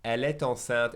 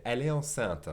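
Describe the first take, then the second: First: T sounded between "est" and "enceinte"; with liaison. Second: "est" ending on its vowel before "enceinte", no T; no liaison. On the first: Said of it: "the liaison between the et en". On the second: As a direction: skip the T between "est" and "enceinte". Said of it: "not gonna do the liaison". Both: Shown as a demonstration.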